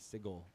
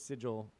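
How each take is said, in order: First: The G is hard, like in go. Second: The G is soft, like a J. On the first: The speaker calls it right. "apparently it is the hard G in sigil" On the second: The speaker calls it wrong. "I used to say that was sigil"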